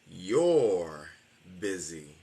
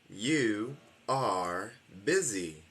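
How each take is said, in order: First: You and are merge into one short syllable. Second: You and are are two separate full words.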